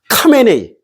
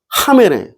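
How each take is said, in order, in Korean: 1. 이 이름은 단단한 K 소리로 시작해요. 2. 이 이름은 숨이 섞인 H 소리로 시작해요. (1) "이렇게 안 들린다니까" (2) "이렇게 들려"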